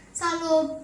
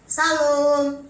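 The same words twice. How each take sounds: First: Gentle greeting. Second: Loud, called-out greeting at a half-open door. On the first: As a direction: say it politely without pushing. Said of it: "Suami saya orang yang kan lembut". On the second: Visitor calling into a quarrelling couple's house, loud call. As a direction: call it into the house so they hear. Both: Retold or imitated.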